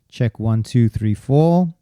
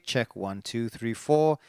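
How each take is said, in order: First: The voice has strong, boomy low frequencies. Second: The voice has reduced, thinner low frequencies. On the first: "That's your great proximity effect" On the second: "Going the other way"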